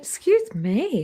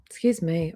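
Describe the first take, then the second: First: Said through a yawn. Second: Hoarse, losing her voice; throat going hoarse, clear it. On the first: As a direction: stretch it out mid-yawn. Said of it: "I don't know why I'm yawning". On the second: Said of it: "already losing my voice". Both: Real, not acted.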